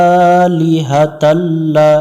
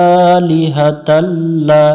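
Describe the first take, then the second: No difference in how they are said.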